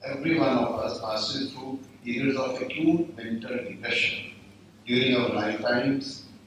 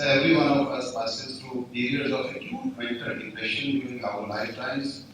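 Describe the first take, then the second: First: It is said slowly and deliberately. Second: It is said at a normal, quicker pace.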